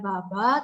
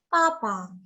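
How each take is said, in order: First: It starts with a voiced b sound. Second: It starts with a voiceless p sound. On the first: The speaker calls it wrong. "tapi bacanya bukan baba" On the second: The speaker calls it right. "tapi papa gitu"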